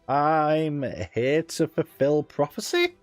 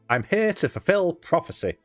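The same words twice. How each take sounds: First: The voice rises at the end like a question. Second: The voice falls at the end like a statement. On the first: It sounds like asking rather than declaring. The speaker calls it wrong. "That sounds like more of a question than a statement" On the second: It sounds like a firm declaration. The speaker calls it right.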